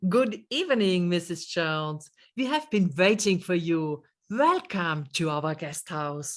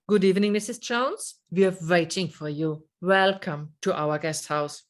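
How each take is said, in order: First: Unhurried, friendly greeting to a late guest; warm welcome. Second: Fast, hurried welcome with no warmth; rushed greeting. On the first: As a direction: greet her kindly, taking your time. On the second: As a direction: rattle it off as if she's a nuisance. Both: Shown as a demonstration. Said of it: "Do you hear the difference?".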